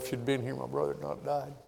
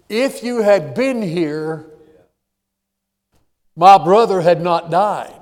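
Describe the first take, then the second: First: It is said in a humble, pleading tone. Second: It is said in a confronting, accusing tone. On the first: The speaker is humbly bringing grief to the listener. The speaker calls it right. "she had a different attitude" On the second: The speaker is blaming the listener. The speaker calls it wrong. "Almost bringing an indictment"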